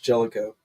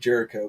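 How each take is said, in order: First: The middle consonant is an L sound. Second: The middle consonant is an R sound. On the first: The speaker calls it right. "but I guess it's Jellico" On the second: The speaker calls it wrong. "I always pronounced it Jericho"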